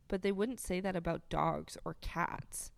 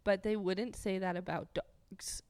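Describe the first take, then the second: First: Said in the usual way. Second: Stifled laughter. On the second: Real, not acted. Breaking up after retake.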